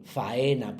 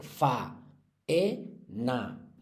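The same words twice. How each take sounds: First: Said in the usual way. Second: "fa, e, na" as three separate beats; por sílabas. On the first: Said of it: "no van a ir juntas". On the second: Shown as a demonstration. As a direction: pause between each syllable: fa, e, na. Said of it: "Esas sí hay que separarlas". ("fa, e, na", sílaba a sílaba con pausas)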